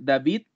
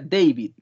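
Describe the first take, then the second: First: The name is said with Spanish pronunciation. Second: The name is said with English pronunciation. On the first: "también podría ser David" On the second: "que en inglés sería David"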